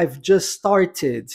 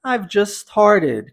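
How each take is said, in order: First: STARTED with a crisp true T in the middle; T fully pronounced. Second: STARTED with its middle T softened to a tapped R; North American flap. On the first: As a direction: sound the T in STARTED, no flap. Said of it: "Posso pronunciar". (STARTED com o T bem pronunciado) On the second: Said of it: "no inglês americano canadense". (STARTED à americana, T com som de R) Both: Shown as a demonstration.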